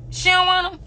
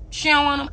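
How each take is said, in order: First: "don't" pitched much higher and stressed; higher taunting repeat. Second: "don't" stressed at normal pitch; taunting emphasis on don't. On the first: Repeating the taunt at a rival, higher and sharper. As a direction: push "don't" up high in She don't want 'em, mocking. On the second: Taunting rival's fans, stress on don't. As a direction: lean on "don't" in She don't want 'em, then let it drop. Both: Real, not acted. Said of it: "I do".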